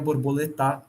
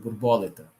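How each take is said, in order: First: The stress is on the last syllable. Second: The stress is on the third-to-last syllable. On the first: "E se ela fosse oxítona" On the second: "Se ela for proparoxítona"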